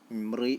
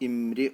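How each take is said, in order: First: The r sound is heavy and thick. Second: The r sound is light and thin. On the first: The speaker calls it wrong. "എന്നല്ല പറയേണ്ടത്" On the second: The speaker calls it right. "അവിടെ തർക്കീഖാണ് ചെയ്യേണ്ടത്"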